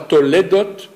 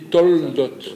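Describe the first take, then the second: First: A vowel is heard between the l and d. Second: No vowel is heard between the l and d. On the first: The speaker calls it wrong. "On ne dit pas toledot" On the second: The speaker calls it right. "on dit toldot"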